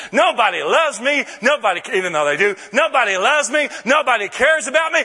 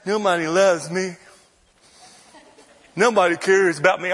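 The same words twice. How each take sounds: First: With great confidence. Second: Said in the usual way. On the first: Shown as a demonstration. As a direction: declare it proudly, like good news. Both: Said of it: "I say it with great confidence".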